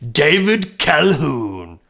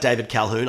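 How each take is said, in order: First: The name is said in an exaggerated, put-on voice. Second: The name is said in a plain, ordinary voice. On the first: "saying it like that really tickles my funny bone" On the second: "I'll say his name normally now"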